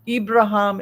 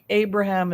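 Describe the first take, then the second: First: The name is said in its Arabic form. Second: The name is said in its American English form. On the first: "is the Islamic" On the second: "American pronunciation"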